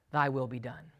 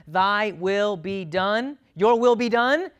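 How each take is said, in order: First: "Thy will be done" dropped low and soft; God's grave verdict. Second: THY WILL BE DONE raised and drawn out, repeated louder; willing surrender to God. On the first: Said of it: "to whom God says". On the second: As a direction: offer "Thy will be done" up to God, slow then emphatic. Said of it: "Those who say to God". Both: Acted.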